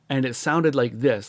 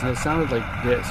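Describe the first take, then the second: First: The voice is heard without added background noise. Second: The voice is heard with added background noise. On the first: The speaker calls it right. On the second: The speaker calls it wrong.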